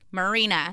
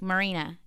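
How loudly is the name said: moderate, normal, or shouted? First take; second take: moderate; normal. First: The name is said somewhat louder. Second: The name is said at normal volume.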